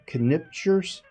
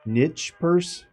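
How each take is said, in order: First: The word starts with a K sound. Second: The word starts without a K sound.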